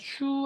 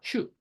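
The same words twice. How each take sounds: First: The vowel is drawn out long. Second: The vowel is cut short. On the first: The speaker calls it wrong. "슈 아닙니다" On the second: The speaker calls it right. "주를 짧게 발음해야 돼요"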